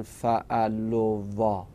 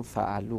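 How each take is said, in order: First: فعلوا said slowly with the final alef voiced, as fa'aluwa; drawn-out wrong fa'aluwa for فعلوا; wrong reading. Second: فعلو said as fa'alu, the alef left silent; softer, correct فعلو without the alef; correct reading. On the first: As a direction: spell out فعلوا slowly, sounding the alef that should be silent. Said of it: "فعلو نمیخونن". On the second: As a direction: end فعلو on the long u with no extra vowel. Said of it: "خونده نمیشه". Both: Shown as a demonstration.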